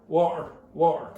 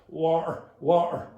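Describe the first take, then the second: The two takes are said the same way.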